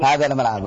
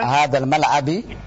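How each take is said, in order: First: The last word ends with a u vowel. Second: The last word ends with an i vowel. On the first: The speaker calls it right. "yang betul adalah" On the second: The speaker calls it wrong. "binya di kasrah"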